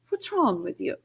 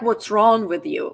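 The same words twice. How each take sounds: First: The voice sounds warm and caring. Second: The voice sounds sharp and accusing. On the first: The speaker wants to help understand the problem. The speaker calls it right. "but more like, what's wrong with you, let's figure this out" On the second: The person is being blamed. The speaker calls it wrong. "not like what's wrong with you"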